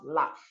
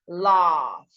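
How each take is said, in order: First: The vowel is cut short. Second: The vowel is held long. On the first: The speaker calls it wrong. "not laugh" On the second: The speaker calls it right. "a U here will make a long sound, and you have laugh"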